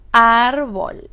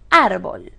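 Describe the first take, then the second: First: "árbol" drawn out as ár, bol, loud on ÁR; syllable by syllable. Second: Said in the usual way. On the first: Shown as a demonstration. Teacher asking where it is stressed, "árbol" syllable by syllable. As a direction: lean hard on the ÁR of "árbol". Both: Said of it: "¿Dónde está acentuada?".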